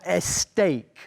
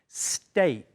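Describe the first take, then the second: First: An extra vowel sound comes before the s. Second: The word starts directly with the s sound. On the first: The speaker calls it wrong. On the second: The speaker calls it right.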